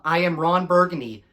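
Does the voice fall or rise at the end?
fall. The voice falls at the end like a statement.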